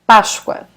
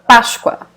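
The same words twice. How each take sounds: First: The s is pronounced like sh. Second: The s is pronounced like sh.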